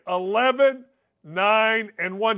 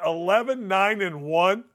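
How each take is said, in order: First: "eleven", "nine", "and one" spaced out, each landing separately; emphatic repeat. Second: Said in the usual way. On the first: Shown as a demonstration. Host repeating the losing record for listeners, "eleven, nine, and one" spelled out emphatically. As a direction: repeat it number by number, pausing after "eleven" and "nine". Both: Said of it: "I'll say it again".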